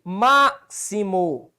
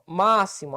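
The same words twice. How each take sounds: First: Máximo split slowly into MÁ, xi, mo; syllable by syllable. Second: Máximo as one word, stressed on MÁ; Máximo joined up, first syllable strongest. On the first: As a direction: stretch MÁ in máximo, then detach the rest. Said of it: "três sílabas". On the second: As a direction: punch MÁ in Máximo and let the rest fall. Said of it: "olha onde é que tá a sílaba tônica". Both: Shown as a demonstration.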